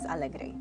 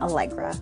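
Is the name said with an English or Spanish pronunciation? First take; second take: Spanish; English. First: The name is said with a Spanish pronunciation. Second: The name is said with an English pronunciation. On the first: "The true pronunciation of my name is Alegre, which means happy in Spanish" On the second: "I usually pronounce my name Allegra"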